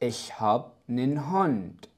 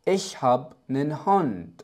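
The two takes are said the same way.

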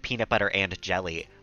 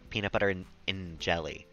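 First: The word 'and' is pronounced fully and clearly. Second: The word 'and' is reduced to a short 'n'. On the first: "I'm overpronouncing it" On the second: "I didn't say and"

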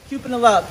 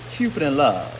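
First: It is said fast. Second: It is said slowly.

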